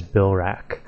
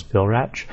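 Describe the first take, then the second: First: "Bilrak" with a B start; correct way. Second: "Vilrach" with a V start; old way. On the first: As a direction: say "Bilrak" as BIL-rack. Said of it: "the correct pronunciation is Bilrak". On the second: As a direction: say "Vilrach" as VIL-rack. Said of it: "what I always said was Vilrach". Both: Shown as a demonstration.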